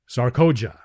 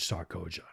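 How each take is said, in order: First: Sarkoja called out firmly, a touch louder; a hint of the warrior addressing an enemy; stern call. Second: Sarkoja dropped much softer and lower; quiet menace. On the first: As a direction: summon her sharply by name. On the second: Acted. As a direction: let the name sink like a threat. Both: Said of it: "said Tars Tarkas".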